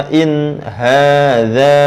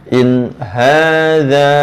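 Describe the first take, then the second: The two takes are said the same way.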